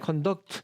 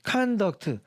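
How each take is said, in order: First: The stress is on the second syllable. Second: The stress is on the first syllable. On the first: It is a verb meaning to lead or behave. "동사일 때는 conduct 뒤에 있는데" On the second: It is a noun meaning behavior. "명사일 때는 동, 액센트가 앞에 있다고"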